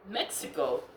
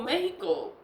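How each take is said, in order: First: Said in the usual way. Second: Mexico said as MEH-hee-ko, with an h; Spanish pronunciation. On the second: Real, not acted. Name said Spanish way, then English.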